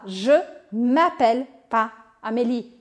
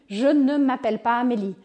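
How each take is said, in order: First: The word ne is dropped before the verb. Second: The word ne is pronounced before the verb. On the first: Casual everyday negation. "Eu faço desaparecer o ne" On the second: Grammatically complete, formal negation. "O correto é eu falar sempre o ne pas"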